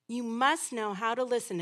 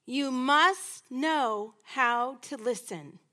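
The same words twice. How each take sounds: First: Said in the usual way. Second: "must" leaned on, slow and deliberate; slow emphatic. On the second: Shown as a demonstration. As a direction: stretch it out, weight on "must".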